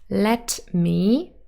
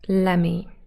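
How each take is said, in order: First: Both words are said fully and separately. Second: The words are run together into one word.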